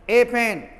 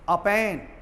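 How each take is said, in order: First: The article is a full, stressed 'ay' sound. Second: The article is a short, weak 'uh' sound. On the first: "जोर देकर बोलेंगे" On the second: "वीक sound में"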